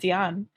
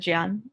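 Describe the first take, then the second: First: The word is said in full, two syllables. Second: The word is shortened into one syllable. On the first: "I would have been saying it Dian" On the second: "shorten it to Jan, and that's how you say it"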